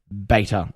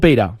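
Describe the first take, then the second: First: It is said with a British pronunciation. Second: It is said with an American pronunciation.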